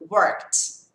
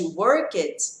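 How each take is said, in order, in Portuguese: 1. O final é só um som de T, sem vogal. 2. O final acrescenta uma vogal extra antes do T. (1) "Só o som do T" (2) "que é o que a maioria das pessoas falam"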